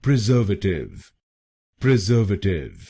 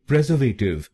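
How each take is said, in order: First: "प्रिजर्वेटिव" as pri-ZER-vuh-tiv; correct pronunciation. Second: "प्रिजर्वेटिव" as PREZ-er-vay-tiv; front-stress "प्रिजर्वेटिव", with a long "vay"; wrong pronunciation. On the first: Teacher tells viewers to say it so, correctly pronounced. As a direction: stress ZER in "प्रिजर्वेटिव", then a short "vuh". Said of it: "इसको बोलिए". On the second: Teacher warns against this version, mispronounced. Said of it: "इस शब्द को प्रिजर्वेटिव नहीं बोलिए". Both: Shown as a demonstration.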